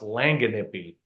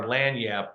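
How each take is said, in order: First: It is said with four syllables, lang-a-nip-py. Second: It is said with two syllables, lan-yap. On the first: "it looks like it should be pronounced Langanippy" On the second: "what we call our Lanyap series"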